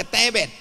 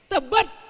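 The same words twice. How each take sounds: First: "Tebet" with open e as in bed. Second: "Tebet" said like "tabat", with dull e; schwa E. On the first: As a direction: say "Tebet" with clear e sounds. ("Tebet" dengan E terbuka) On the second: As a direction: say "Tebet" with schwa vowels, higher-pitched. ("Tebet" dengan E pepet) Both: Shown as a demonstration. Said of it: "ada E".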